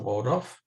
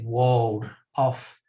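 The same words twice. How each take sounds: First: It is said quickly as one joined word. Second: It is said slowly as two separate words. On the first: The speaker calls it wrong. "If you say it quickly, it sounds much more flash" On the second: The speaker calls it right. "but it's the Waldorf Hotel"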